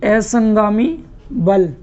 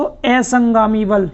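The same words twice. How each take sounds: First: "असंगामी बल" slowed right down and stretched; teacher's slow drill of "असंगामी बल"; slow repeat. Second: Said in the usual way. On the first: Shown as a demonstration. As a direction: repeat "असंगामी बल" slowly so students can write it. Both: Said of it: "Hindi में कहते हैं इसको".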